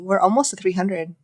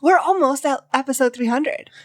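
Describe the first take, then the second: First: It is said in a flat, unexcited tone. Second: It is said in an excited, lively tone.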